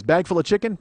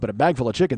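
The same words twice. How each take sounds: First: "chicken" rising at the end like a question; cop quote with rising chicken. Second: Chicken leaned on with a puzzled lift; stress on chicken. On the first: Retold or imitated. Cop asking about the bag with a rising "chicken". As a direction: lift "chicken" up as the cop's puzzled question. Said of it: "He goes". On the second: Shown as a demonstration. Comic stressing "chicken" to the audience. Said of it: "we're used to anvils".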